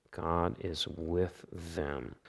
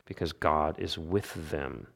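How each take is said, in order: First: Softer and slow, letting the line settle; soft echo. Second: Said in the usual way. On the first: Acted. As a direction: repeat it hushed, almost to yourself. Repeated line, echoed softly.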